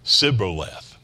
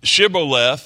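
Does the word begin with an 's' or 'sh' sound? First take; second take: s; sh. First: The word begins with an 's' sound. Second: The word begins with a 'sh' sound. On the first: The speaker calls it wrong. "they would say Sib or Sibboleth" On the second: The speaker calls it right. "couldn't pronounce that shh"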